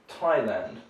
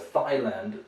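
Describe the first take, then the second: First: It begins with a plain T sound. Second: It begins with a TH sound, like thigh. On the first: The speaker calls it right. "We say Thai" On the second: The speaker calls it wrong. "that sounds unusual because it's a place where maybe people show their thighs a lot"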